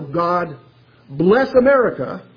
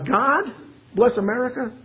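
First: It is said in a demanding tone. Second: It is said in an incredulous tone. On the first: Blessings are owed and never enough. "those blessings through demanding eyes" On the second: Blessings are only a product of random chance. "through incredulous eyes"

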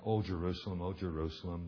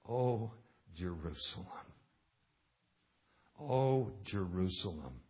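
First: It is read flatly with little feeling. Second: It is read slowly with deep grief. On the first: The speaker calls it wrong. "some kind of monotone reading" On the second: The speaker calls it right. "You can feel the pathos. You can feel the grief"

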